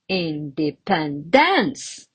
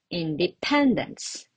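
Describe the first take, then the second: First: The stress is on the fourth syllable. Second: The stress is on the third syllable. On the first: The speaker calls it wrong. "And another wrong one" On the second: The speaker calls it right. "And the correct one"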